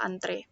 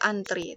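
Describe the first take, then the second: First: The word ends with an 'eh' vowel. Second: The word ends with an 'ee' vowel. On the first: This is the standard dictionary form. The speaker calls it right. "yang benar itu adalah antre" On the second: This is the common non-standard form. The speaker calls it wrong. "selama ini kita akan mengatakan belajar antri"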